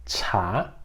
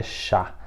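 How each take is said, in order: First: Chá with a strong puff of air on the ch; chá as Chinese chá, aspirated. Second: Chá with a soft Portuguese sh and no breath; chá as in Portuguese, unaspirated; wrong chá. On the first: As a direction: blow the ch of chá out like a breath. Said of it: "é". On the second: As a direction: say chá plainly, like the Portuguese word. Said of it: "Não é chá". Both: Shown as a demonstration.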